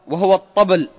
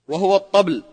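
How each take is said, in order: The two takes are said the same way.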